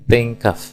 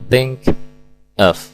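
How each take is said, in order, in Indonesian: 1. Kedua kata itu disambung menjadi satu bunyi. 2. Kedua kata itu diucapkan terpisah. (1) "menjadi satu kesatuan bunyi" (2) "secara terpisah"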